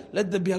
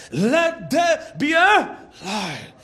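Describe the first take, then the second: First: Low, quick, throwaway "Let there be a"; offhand delivery. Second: Slow, weighty "Let there be a light"; emphatic proclamation. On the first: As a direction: toss off "Let there be a" casually, without weight. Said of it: "He did just like". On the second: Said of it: "God said". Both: Shown as a demonstration.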